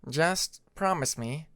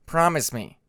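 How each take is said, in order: First: Said in the usual way. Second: A firm, louder stern demand; voice hardening. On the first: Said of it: "his voice hardening". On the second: Acted. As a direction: press the promise, suddenly stern. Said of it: "his voice hardening for a moment".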